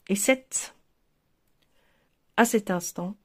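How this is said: A t is sounded, then a stop before 'à'. "il s'arrête sur la liaison"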